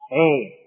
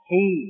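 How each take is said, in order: First: The vowel is tilted toward e. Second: The vowel is a pure i sound. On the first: The speaker calls it wrong. "Suara imalah. Hei, ini salah" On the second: The speaker calls it right. "dengan menurunkan rahang dan menarik ke belakang"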